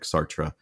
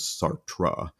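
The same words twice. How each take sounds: First: The T near the end is said softly. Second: The T near the end is said hard. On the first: "it's going to sound more like Sartre" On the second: "it's not as hard as Sartre"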